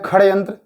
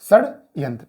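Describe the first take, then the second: First: The first sound is a 'kh' sound. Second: The first sound is a 'sh' sound. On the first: The speaker calls it wrong. "कुछ लोग उसको पढ़ते हैं खड़े यंत्र, जो कि टोटली गलत है" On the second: The speaker calls it right. "क्या होगा"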